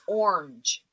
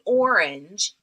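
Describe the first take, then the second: First: The vowel after the r is dropped. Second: The vowel after the r is clearly heard. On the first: This imitates how someone else says it. "It's like there's no A in there" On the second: This is the usual way to say it. "She doesn't say orange"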